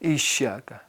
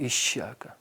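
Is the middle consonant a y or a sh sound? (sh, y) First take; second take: sh; sh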